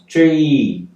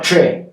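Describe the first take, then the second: First: The vowel is said long. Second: The vowel is said short. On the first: The speaker calls it right. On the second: The speaker calls it wrong.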